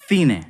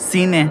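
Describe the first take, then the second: First: The c sounds like English th. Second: The c sounds like English s. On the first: This is how it is said in Spain. "in central Spain especially, this will sound cine. Um, it's like the T H in English" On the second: This is how it is said in Latin America. "just focus on the S sound"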